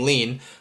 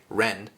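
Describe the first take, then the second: First: The name begins with an L sound. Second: The name begins with an R sound. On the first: This is the English version of the name. "in English we would call him Lean" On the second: This is how the anime says the name. "in the anime uh, they pronounce his name like Ren"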